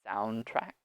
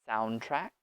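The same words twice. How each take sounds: No difference in how they are said.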